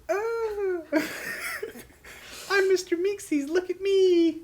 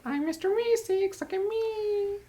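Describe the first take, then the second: First: High, loud cartoon voice with laughter; Mr. Meeseeks voice. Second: High, slow cartoon voice; Mr. Meeseeks voice. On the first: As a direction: squeal it out like a cartoon helper. Imitating Mr. Meeseeks character. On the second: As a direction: chirp it like an eager cartoon helper. Correcting the Meeseeks impression.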